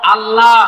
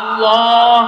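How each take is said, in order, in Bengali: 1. 'l' ধ্বনিটি হালকা ও পাতলা। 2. 'l' ধ্বনিটি ভারী ও মোটা। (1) "আল্লাহ না" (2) "এই নামটাকে মোটা করে পড়তে হবে"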